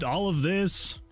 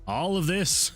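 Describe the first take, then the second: No difference in how they are said.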